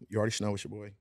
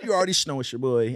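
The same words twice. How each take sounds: First: It is said calmly and restrained. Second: It is said with more energy.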